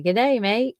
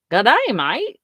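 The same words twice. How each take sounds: First: Lightly voiced Aussie greeting; Australian accent. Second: Lightly put-on Australian accent; a hint of Aussie, embarrassed. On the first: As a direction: toss off a mild Aussie accent. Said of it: "do his accent". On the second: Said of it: "do his accent back to him".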